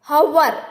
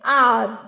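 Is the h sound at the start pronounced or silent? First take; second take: pronounced; silent. First: The word starts with an audible h sound. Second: The word starts with a vowel, no h sound. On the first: The speaker calls it wrong. "ऐसा नहीं कहते" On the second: The speaker calls it right. "यहाँ से बोलते हैं आर"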